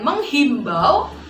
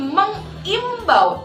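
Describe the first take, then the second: First: An 'h' sound comes before the 'i'. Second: No 'h' sound comes before the 'i'. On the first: The speaker calls it wrong. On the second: The speaker calls it right. "tanpa H"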